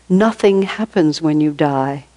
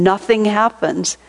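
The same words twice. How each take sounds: First: Said in the usual way. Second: "Nothing" stressed, a little higher and slower; emphatic repeat. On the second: Retold or imitated. Teacher repeating to her for emphasis, "Nothing" stressed. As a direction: lean hard on "Nothing" to drive it home. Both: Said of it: "And emphatically, he said it again".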